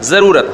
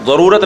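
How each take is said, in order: First: The z is a plain sound. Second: The z is an emphatic Arabic sound. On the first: The speaker calls it right. "क्या होता है?" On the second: The speaker calls it wrong. "ज़रूरत नहीं होता"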